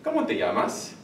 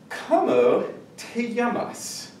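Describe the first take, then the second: First: The words are run together smoothly. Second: The words are said separately and choppily.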